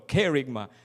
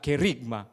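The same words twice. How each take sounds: First: The stress is on the first syllable. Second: The stress is on a later syllable. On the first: The speaker calls it right. "The accent, it should be there, the first syllable" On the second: The speaker calls it wrong. "not kerygma. That's wrong"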